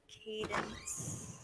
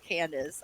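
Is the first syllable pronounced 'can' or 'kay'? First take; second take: kay; can. First: The first syllable sounds like 'kay'. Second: The first syllable sounds like 'can'. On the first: The speaker calls it right. "Yep. You're right" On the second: The speaker calls it wrong. "I've been pronouncing it Candace this whole time"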